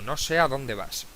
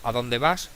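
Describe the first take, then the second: First: "No sé a dónde vas" with a falling statement tune on "vas"; indirect question statement. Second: "¿a dónde vas?" with a rising question tune on "vas"; direct question. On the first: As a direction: state "No sé a dónde vas" calmly, letting "vas" drop. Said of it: "Por eso digo". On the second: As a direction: ask "¿a dónde vas?" straight out, lifting "vas" at the end. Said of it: "No digo". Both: Shown as a demonstration.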